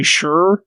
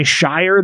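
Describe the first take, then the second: First: Sure drawn out slowly as the word ending; SURE pronunciation. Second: Shire said like SHY-er, to rhyme with fire; SHIRE pronunciation. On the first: Explaining what the English do say, slow SURE. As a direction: stretch sure out, a short-word sound in place of shire. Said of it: "they say sure". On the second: Explaining what the English don't say, full SHIRE. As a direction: give shire its full long-i sound. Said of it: "they don't say shire". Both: Shown as a demonstration.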